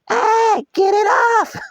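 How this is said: It is said in a mock girly voice.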